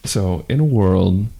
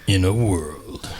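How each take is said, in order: First: Half-hearted low trailer voice; a flat attempt at the trailer guy; weak movie trailer voice. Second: Slow epic trailer narrator; movie trailer voice. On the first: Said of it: "the Zach voice not doing it". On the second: Acted. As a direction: announce it like a blockbuster trailer. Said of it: "It's the movie trailer voice guy".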